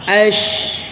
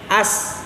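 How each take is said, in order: First: It is said with an sh sound. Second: It is said with a plain s sound. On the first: The speaker calls it right. "Harus apa?" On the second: The speaker calls it wrong. "nggak boleh jadi as ya"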